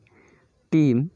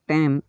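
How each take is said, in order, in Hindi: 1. स्वर एक लंबा 'ee' ध्वनि है। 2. स्वर एक खुला 'e' ध्वनि है।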